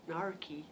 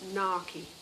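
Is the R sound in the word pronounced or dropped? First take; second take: pronounced; dropped. First: The R after the first vowel is pronounced. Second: The R after the first vowel is dropped. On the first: "I think you would say something like nar narky because you pronounce R's" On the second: "this is what I'm saying"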